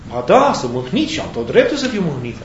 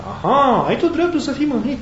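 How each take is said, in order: First: Swooping, insistent sulky reply; mildly hammed-up wounded protest; aggrieved retort. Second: High, lilting "aha" of feigned agreement; lightly acted, high-pitched questioning comeback; knowing echo. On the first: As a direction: answer back, standing on your right to sulk. Acted dialogue, Jonah answers God. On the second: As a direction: echo the complaint back in a raised pitch. Acted dialogue, God echoes Jonah's complaint.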